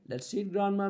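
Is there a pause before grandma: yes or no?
no. It runs on with no pause before grandma.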